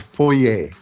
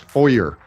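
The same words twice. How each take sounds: First: Foyer is said in the speaker's own non-American way. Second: Foyer is said in the American way. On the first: The speaker calls it right. "we pronounce in closer to what I think are the original" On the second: The speaker calls it wrong. "it's foyer in the States"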